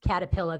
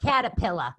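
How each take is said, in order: First: Boston accent. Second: Caterpillar with dropped r, Boston style, laughing; playful Boston accent on caterpillar. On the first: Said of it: "there's my Boston accent". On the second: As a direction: say caterpillar like a Boston local, r-less ending. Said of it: "That's how they talk in Boston". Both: Shown as a demonstration.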